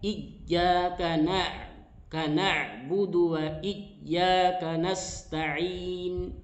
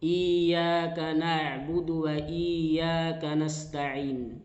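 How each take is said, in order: First: The doubled y sound is pressed too hard. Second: The doubled y sound is not doubled. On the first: "Tidak terlalu kuat" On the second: "ya bertasdid ini tidak diperhatikan"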